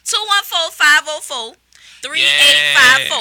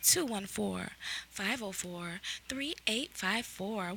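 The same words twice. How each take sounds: First: It is said in his normal voice. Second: It is said in a put-on sexy voice.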